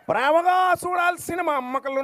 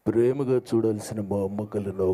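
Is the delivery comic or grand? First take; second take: comic; grand. First: It is said in a light, comic voice. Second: It is said in a grand, heroic voice. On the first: "ఆయన స్టైల్లో" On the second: "so ఇంత ఘనంగా ఆయన చెప్తే"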